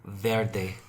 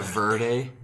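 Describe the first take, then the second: First: VERDE as "VAIR-day", Spanish-style; Spanish accent. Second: VERDE as "VUR-day", American accent. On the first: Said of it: "say it with that accent". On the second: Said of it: "embrace my whiteness with verde". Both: Shown as a demonstration.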